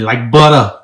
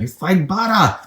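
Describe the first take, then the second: First: Boston accent. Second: Deep, lightly voiced redneck twang; redneck accent. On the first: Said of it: "How do you say it in that, that Yankee Boston accent?". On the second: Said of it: "that was deep and redneck". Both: Shown as a demonstration.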